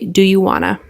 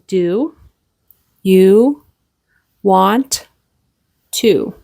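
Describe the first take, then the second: First: Want to is reduced to wanna. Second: Want to is pronounced fully as two words. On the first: "In spoken English, we often say" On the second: "but it is do you want to"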